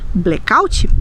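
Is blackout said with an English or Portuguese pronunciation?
Portuguese. It is said with Brazilian Portuguese pronunciation. "nós vamos dizer"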